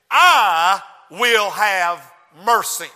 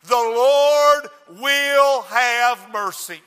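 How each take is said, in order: First: Slow, loud shout on I; a slow loud cry, I stressed; preached verse. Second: Slow, loud shout on Lord; booming slow declaration; preached proclamation. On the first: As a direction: preach it out, leaning hard on I. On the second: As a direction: drive it home slowly. Preacher's punchline. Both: Acted.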